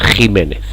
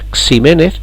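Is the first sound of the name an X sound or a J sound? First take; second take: J sound; X sound. First: The name begins with a throaty J sound. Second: The name begins with an X-letter sound. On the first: The speaker calls it right. "sino Jiménez" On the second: The speaker calls it wrong. "no sería Ximénez"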